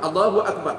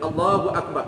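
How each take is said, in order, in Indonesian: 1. Frasa itu diucapkan cepat dan pendek. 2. Frasa itu diucapkan panjang dan perlahan. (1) "tiga saat Allahu Akbar pendek" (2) "panjang tu enam saat contoh dia panjang"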